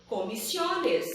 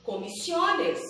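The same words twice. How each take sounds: The two takes are said the same way.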